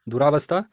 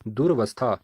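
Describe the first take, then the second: First: दुरावस्था with a long "raa"; wrong pronunciation. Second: दुर्वस्था with no long aa after r; correct pronunciation. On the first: Teacher reading out the wrong word, दुरावस्था with long aa. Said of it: "अशुद्ध प्रयोग है". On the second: Teacher giving the correct word, दुर्वस्था with r straight into v. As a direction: say दुर्वस्था as "dur-vastha". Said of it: "शुद्ध वर्तनी है". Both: Shown as a demonstration.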